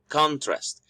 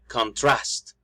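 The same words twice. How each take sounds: First: The stress is on the first syllable. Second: The stress is on the second syllable. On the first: "The stress in the first is in the first syllable" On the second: "we can actually stress the second syllable"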